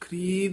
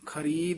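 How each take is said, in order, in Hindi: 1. र की ध्वनि कमज़ोर है और पूरी तरह नहीं बोली गई। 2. र की ध्वनि पूरी और साफ़ बोली गई है। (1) "ਖਰੀਦ ਨਹੀਂ" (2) "ਰਾਰਾ ਪੂਰਾ ਬੋਲਣਾ ਹੈ"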